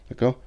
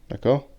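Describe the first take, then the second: The two takes are said the same way.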